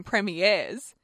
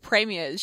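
First: Premieres with a drawn-out "airs" ending; imitated mispronunciation. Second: Said in the usual way. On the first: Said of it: "what she's saying is". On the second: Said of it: "instead of premiers".

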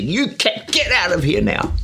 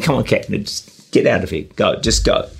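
First: High, sharp command to get out; shouting at the cat. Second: Said in the usual way. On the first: Retold or imitated. Man in his shed shouting the cowering cat out. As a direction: order the cat out, pitched well up. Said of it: "And he shouts at the cat". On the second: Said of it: "and he said".

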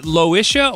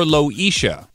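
First: Loisha with a short i, lo-ISH-a; short-i pronunciation. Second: Loisha with a long ee, lo-EE-sha; long-e pronunciation. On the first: Host checking the caller's name, Loisha said lo-ISH-a. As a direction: say Loisha so the middle rhymes with "wish". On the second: Host offering the other name option, Loisha said lo-EE-sha. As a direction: say Loisha so the middle sounds like "leash". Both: Shown as a demonstration. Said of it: "Is it Loisha or Loisha?".

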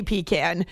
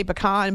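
First: 'pecan' said as PEE-can. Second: 'pecan' said as puh-KAHN. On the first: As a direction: say 'pecan' with ee, then 'can'. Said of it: "I say pecan". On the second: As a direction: end 'pecan' on an open 'kahn'. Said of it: "wanted me to say pecan". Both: Shown as a demonstration.

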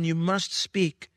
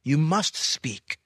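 First: Slow, with "must" weighted; "You must speak" as a heavy, slow command; stress on must. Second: Slow, with "must" leaned on heavily; stern command, "must" stretched and weighted; stress on must. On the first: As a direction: draw out "must" like an order from God. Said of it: "it's a command". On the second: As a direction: drag out "You must speak", pressing hard on "must". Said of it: "imperative ... a command". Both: Shown as a demonstration.

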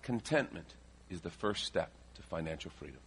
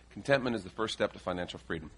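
First: Measured, quiet key point; dictating for notes. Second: Said in the usual way. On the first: Shown as a demonstration. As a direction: give it out in pieces for note-takers. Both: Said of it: "write this down".

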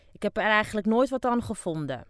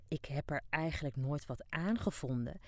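First: Loud, high, "nooit" stressed; loud dismissive wife. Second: Said in the usual way. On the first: Acted. Deaf old wife loudly admits she never enjoyed it. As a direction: shout it with a shrug, hit "nooit".

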